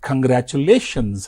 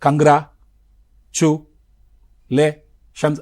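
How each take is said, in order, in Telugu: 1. ఆ పదాన్ని ఒకేసారి, సాఫీగా చెబుతారు. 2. ఆ పదాన్ని అక్షరాల మధ్య విరామాలు ఇస్తూ విడగొట్టి చెబుతారు. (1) "ఒకేసారి ప్రొనౌన్స్ చేస్తాను కదా" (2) "అంతేగాని కంగ్రా చు లే షన్స్ అనను కదా"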